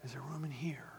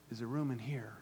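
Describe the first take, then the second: First: Whispered question; hushed whisper, asking room. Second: Quiet question. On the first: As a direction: breathe it to the church. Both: Real, not acted. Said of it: "Come on, church".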